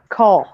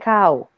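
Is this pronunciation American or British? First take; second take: British; American. First: It is said with a British vowel. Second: It is said with an American vowel. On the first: "en inglés británico uno dice caw" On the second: "en inglés gringo uno dice cow"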